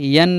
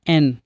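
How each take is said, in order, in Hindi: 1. यह स्वर से पहले y ध्वनि से शुरू होता है। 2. यह सीधे e स्वर से शुरू होता है। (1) "इसे यन नहीं" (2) "एन पढ़ा जाता है"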